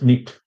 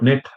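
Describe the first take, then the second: First: The vowel is a closer 'ih' sound. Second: The vowel is an open 'eh' sound. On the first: "it becomes nit" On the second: "they don't say eh, like net"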